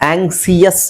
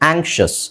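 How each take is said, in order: First: The middle consonant is a plain 's' sound. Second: The middle consonant is an 'sh' sound. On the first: The speaker calls it wrong. "ಆಂಗ್ಸಿಯಸ್ ಅಲ್ಲ" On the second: The speaker calls it right. "ಕರೆಕ್ಟಾಗಿ pronounce ಮಾಡಿ"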